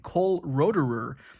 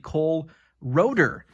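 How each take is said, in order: First: The surname ends with an extra 'er' syllable. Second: The surname ends without an extra syllable. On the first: The speaker calls it wrong. "I've been calling him Cole Roederer" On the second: The speaker calls it right. "the E R on the end is actually silent"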